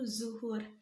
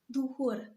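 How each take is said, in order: First: The word begins with a z sound. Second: The word begins with a d sound. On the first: The speaker calls it right. "dalam bentuk baku" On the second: The speaker calls it wrong. "adanya kata duhur"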